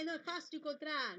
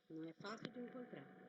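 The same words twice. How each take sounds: First: It is said in a cheerful, happy tone. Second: It is said in a discouraged, dispirited tone.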